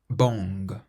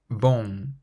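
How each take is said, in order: First: The word ends with a hard g sound. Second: The word ends in a nasal vowel, no g. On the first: The speaker calls it wrong. "Imagine it's spelt B O N G, and say it out loud" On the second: The speaker calls it right. "if we stop just before we pronounce the G"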